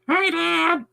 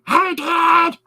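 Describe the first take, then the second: First: It is said in a half-scratchy voice. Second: It is said in a very scratchy voice.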